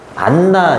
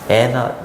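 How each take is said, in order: First: The middle n sound is doubled. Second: The middle n sound is single. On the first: The speaker calls it wrong. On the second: The speaker calls it right.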